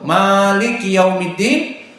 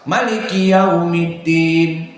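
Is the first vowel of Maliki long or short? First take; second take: long; short. First: The first vowel of Maliki is drawn out long. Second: The first vowel of Maliki is kept short. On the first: This follows one established reading tradition. "mad qiraahnya Hafs an Asim" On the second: This follows another established reading tradition. "tanpa mad"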